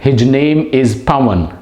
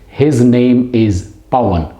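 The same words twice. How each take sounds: First: The word his ends with a j sound. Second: The word his ends with a z sound. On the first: The speaker calls it wrong. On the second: The speaker calls it right.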